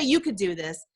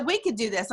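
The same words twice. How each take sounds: First: "You" set apart as the word that was not said; stress on YOU. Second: "We" stressed as the word that matters. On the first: Friend did not leave her alone with it, stress on "You". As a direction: lean on "You", as the rejected wording. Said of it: "she didn't say". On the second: Friend offering to help her do it, stress on "We". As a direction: lean on "We" to include yourself. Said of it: "She said". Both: Retold or imitated.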